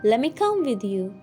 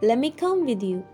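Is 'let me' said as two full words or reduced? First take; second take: reduced; reduced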